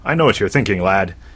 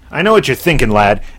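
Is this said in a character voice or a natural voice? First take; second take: natural voice; character voice. First: It is said in the speaker's ordinary voice. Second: It is said in a put-on character voice.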